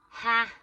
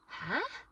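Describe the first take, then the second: First: It sounds dismissive, flatly rejecting the idea. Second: It sounds incredulous, doubting what was said. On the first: The listener rejects that it will happen. "like no, that that isn't happening" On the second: The listener does not believe what was said. "is like I don't believe it. Say it again"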